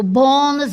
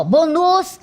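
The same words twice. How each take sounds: First: "bônus" with stressed, drawn-out BÔ; stress on penultimate syllable. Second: "bônus" wrongly stressed on final -NUS; stress on the last syllable. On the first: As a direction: say "bônus" correctly, leaning on BÔ. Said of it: "sílaba tônica é a penúltima". ("bônus" com a tônica na penúltima sílaba) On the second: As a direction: say "bônus" as bo-NUS, punching the end. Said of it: "Eu não digo assim". ("bônus" com a tônica errada, no final) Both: Shown as a demonstration.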